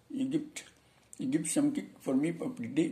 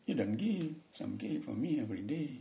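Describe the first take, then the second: First: Light mock Indian English accent. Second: Slow, light mock Balinese English accent. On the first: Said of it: "itu orang India". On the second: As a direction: softly imitate a Balinese speaker of English. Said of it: "orang Bali".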